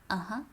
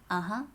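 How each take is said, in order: The two takes are said the same way.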